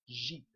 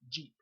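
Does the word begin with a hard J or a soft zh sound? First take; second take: soft zh; hard J. First: It begins with a soft buzzing zh sound. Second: It begins with a hard English J sound. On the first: "If you were to pronounce the word Jeep with the soft J" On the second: "as opposed to"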